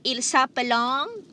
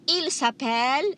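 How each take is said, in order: First: The verb ending is sounded out aloud. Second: The verb ending is left silent. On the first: The speaker calls it wrong. "you don't say il s'appelong" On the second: The speaker calls it right. "The E N T at the end is always silent"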